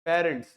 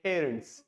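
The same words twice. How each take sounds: First: The p is said without a puff of air. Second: The p is said with a puff of air. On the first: This is how Indian speakers say it. "हम कहते हैं parents" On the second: This is how native speakers say it. "they say parents"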